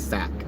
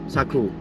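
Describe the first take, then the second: First: The name is said with one syllable. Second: The name is said with two syllables. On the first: A speech engine reads the spelling properly. The speaker calls it right. "will read S A C as sack" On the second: A speech engine misreads the spelling. The speaker calls it wrong. "It might read S A Q as Saku"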